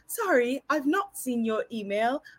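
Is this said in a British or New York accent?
British. It is said in a British accent. "I cannot resist attempting to speak with her beautiful British accent"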